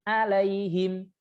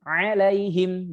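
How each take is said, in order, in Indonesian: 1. Kata ini dimulai dengan bunyi vokal biasa. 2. Kata ini dimulai dengan konsonan dari tengah tenggorokan. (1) "bukan alaihim" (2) "ain ... tengah tenggorokan"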